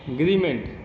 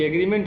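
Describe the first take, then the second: First: The initial vowel is dropped, starting with g. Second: The word starts with its initial vowel sound. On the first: This is how unschooled workers shortened the word. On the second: This is the original English word.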